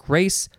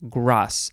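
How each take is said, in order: First: It is said like the English word grace. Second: It is said with a French pronunciation. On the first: The speaker calls it wrong. "Looks like grace" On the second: The speaker calls it right. "it's pronounced grâce"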